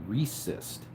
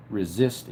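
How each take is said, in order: First: "resist" with an s sound, REE-sist; misspelling read out. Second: "resist" with a z sound, ri-ZIST; standard word pronunciation. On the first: Streamer reading a viewer's misspelt comment, "resist" as REE-sist. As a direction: say "resist" as REE-sist, first syllable drawn out. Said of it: "you said I have a really good resist". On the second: Streamer puzzling over a viewer's typo, "resist" as ri-ZIST. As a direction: say "resist" as ri-ZIST, stress on the second syllable. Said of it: "Maybe you meant something else". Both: Retold or imitated.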